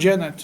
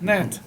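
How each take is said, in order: First: It starts with a hard g sound. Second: It starts with an n sound. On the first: The speaker calls it wrong. "not Janet" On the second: The speaker calls it right. "but you don't say the G"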